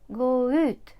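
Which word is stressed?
ut. The stress falls on the particle ut. The speaker calls it right. "Завжди наголос на оці частинки"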